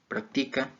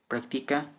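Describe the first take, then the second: First: The stress is on the first syllable. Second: The stress is on the middle syllable. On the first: It is used as a noun. "esdrújulas" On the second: It is used as a verb. "En grave"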